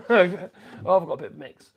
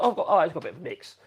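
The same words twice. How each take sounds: First: "I've got a bit of a mix" through a chuckle; amused laughing repeat. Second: Said in the usual way. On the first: Real, not acted. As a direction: laugh at your own tool mix.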